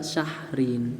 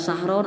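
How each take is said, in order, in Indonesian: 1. Kata itu berakhir dengan vokal i diikuti n. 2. Kata itu berakhir dengan vokal o diikuti n. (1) "tapi dibacanya juga syahrin" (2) "tidak dibaca sahron"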